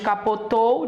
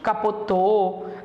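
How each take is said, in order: First: The final diphthong is fully pronounced. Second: The final diphthong is swallowed and reduced. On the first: "em vez de dizermos capotou" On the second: "É normal nós engolirmos"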